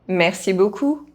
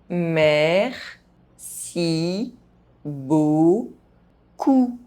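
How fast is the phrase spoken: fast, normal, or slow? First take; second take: fast; slow. First: The phrase is spoken fast. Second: The phrase is spoken very slowly. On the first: "fast, as a native speaker would do" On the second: "very slowly"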